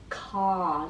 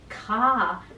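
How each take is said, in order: First: The vowel resonates back in the throat. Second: The vowel resonates forward in the mouth. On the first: The speaker calls it wrong. "feel the ah going backwards, ka down the throat" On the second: The speaker calls it right. "the sound of ah, comes forward through the resonance"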